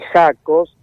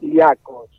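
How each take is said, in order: First: The surname is read with local Spanish pronunciation. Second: The surname is said with its Slovenian pronunciation. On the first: This is how people locally say the name. "acá nos dicen Jacos" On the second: This is the name's original, correct pronunciation. "es un apellido esloveno que bien pronunciado sería Jacos"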